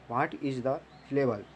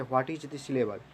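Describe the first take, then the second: First: Each word spaced out slowly for notes; slow dictation. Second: Said in the usual way. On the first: Shown as a demonstration. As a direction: say it slowly so students can write. (धीरे-धीरे लिखवाते हुए)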